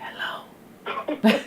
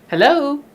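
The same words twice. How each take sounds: First: It is said in a low whisper. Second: It is said in a normal voice.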